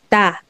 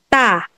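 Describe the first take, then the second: First: The t is soft, without tension. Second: The t is hard and tense. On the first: The syllable stands alone. "kapag singular mo lang to, standing alone itong ta" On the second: The syllable is attached as a second block. "dinikit mo siya at siya yung naging second syllabic block"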